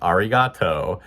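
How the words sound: It is said with an American English accent. "in English you'd be like"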